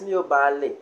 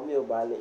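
First: "Miyo bale" with a stressed, falling "bale". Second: Said in the usual way. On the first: Shown as a demonstration. Teacher contrasting both options for learners, stressed bale. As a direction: give "bale" the weight in "Miyo bale". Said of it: "So you can place the stress". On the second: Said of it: "or you take out the stress".

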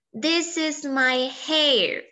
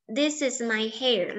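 First: Very slow, with weight on this; first slow model read for pupils to copy; slow model sentence. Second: Said in the usual way. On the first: Shown as a demonstration. Teacher models the sentence, then repeats.

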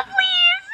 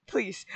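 First: Squeaky high desperate please; high begging plea. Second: Quiet low resigned plea; soft defeated please. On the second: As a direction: let the plea drop away. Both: Real, not acted. Begging Grim Reaper for SpongeBob.

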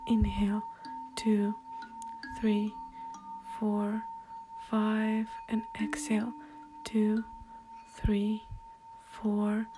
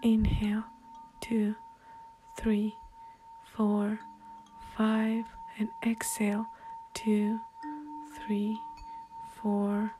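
Both takes have the same delivery.

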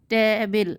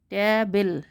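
No difference in how they are said.

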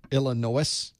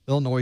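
First: "Illinois" as "ill-ih-NO-iss", sounding the s; "Illinois" ending in a spelled-out "no-iss"; deliberate mispronunciation. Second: Said in the usual way. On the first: Shown as a demonstration. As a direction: say "Illinois" wrongly, with an audible final s. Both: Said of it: "That's not how you pronounce it".

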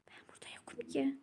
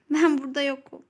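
First: Hushed, quick whisper so nobody hears. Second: Said in the usual way. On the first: Pretend. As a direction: whisper it, hiding from your friend. Hiding, pretending not to be there. (saklanırken fısıltıyla)

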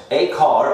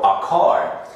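First: "A" said like the letter name, "ay car". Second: "a" with a short neutral vowel, "uh car". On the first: Teacher contrasting two pronunciations, "A" as "ay". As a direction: say "A car" with A rhyming with day. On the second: Teacher contrasting two pronunciations, "a" as "uh". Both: Shown as a demonstration. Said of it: "depende de la pronunciación".

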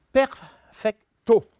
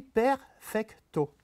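First: Perfecto, louder and higher, punched on the first syllable per-; slow perfecto, hitting per- hard at the start; German stress. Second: Perfecto, slow, with the weight on the last syllable -to; French stress. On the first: Lecturer imitates how a German reads perfecto, stressing the start. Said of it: "le début". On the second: Lecturer shows the French reading of perfecto, stressing the last syllable. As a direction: drawl perfecto, landing on the final syllable. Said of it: "on va appuyer sur la dernière syllabe". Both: Shown as a demonstration.

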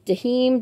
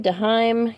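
First: Dahim said da-HEEM, long ee. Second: Daheim said da-HIME, rhyming with time. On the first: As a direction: try Dahim as "duh-HEEM". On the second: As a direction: try Daheim as "duh-HIME". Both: Shown as a demonstration. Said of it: "let me know how to say".

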